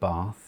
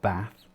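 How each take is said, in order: First: It is said in received pronunciation. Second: It is said in a non-RP accent. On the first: "My accent is called received pronunciation because I say" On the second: "instead of"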